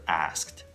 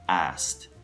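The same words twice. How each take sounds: First: The K sound is pronounced clearly and fully. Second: The K sound is so weak it is barely heard. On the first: "instead of asked" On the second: "K sound is so weak that you cannot really hear"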